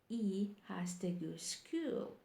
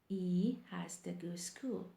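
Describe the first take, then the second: The two takes are said the same way.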